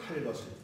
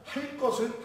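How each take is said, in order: First: The consonant after 할 is plain. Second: The consonant after 할 is tense. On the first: This is the newer pronunciation. "예삿소리로 발음한다" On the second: This was the older standard pronunciation. "빈소리로 발음한다"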